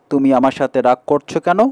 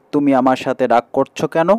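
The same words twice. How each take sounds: The two takes are said the same way.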